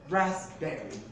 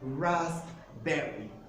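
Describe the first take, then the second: First: The middle has no P sound. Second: The P sound is pronounced in the middle. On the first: The speaker calls it right. "The next P is a silent" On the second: The speaker calls it wrong. "It is not pronounced as raspberry"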